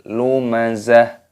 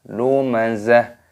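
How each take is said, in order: No difference in how they are said.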